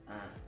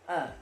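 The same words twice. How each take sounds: First: The sound is pressed low in the throat. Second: The sound is made in the mouth. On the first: The speaker calls it right. "yang benar adalah A" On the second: The speaker calls it wrong. "kalau tidak ditekan di tenggorokan bagian bawah, nanti di mulut"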